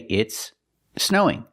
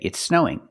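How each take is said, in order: First: The two words are said separately. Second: The two s sounds merge into one. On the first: "separate the words and say" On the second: "link the words and say"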